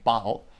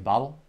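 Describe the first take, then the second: First: The word is said in a non-American accent. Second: The word is said in an American accent.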